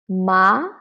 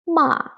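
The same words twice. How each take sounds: First: The pitch rises from middle to high. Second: The pitch falls sharply from high to low. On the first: "the second tone. From three to five. It is a rising tone" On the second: "the last one, ma, going down"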